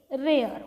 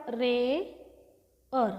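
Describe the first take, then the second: First: Said in the usual way. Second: रे held, a pause, then अर on its own; syllable-by-syllable demo. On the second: Shown as a demonstration. Teacher breaks down रे अर for learners, slow syllable demo. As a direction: split it slowly into रे and अर. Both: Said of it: "कसा लिहिला मग त्याला आपण?".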